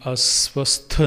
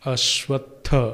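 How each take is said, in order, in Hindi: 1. यह शब्द सादे 's' ध्वनि से शुरू होता है। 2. यह शब्द 'sh' ध्वनि से शुरू होता है। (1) "अस्वस्थ नहीं"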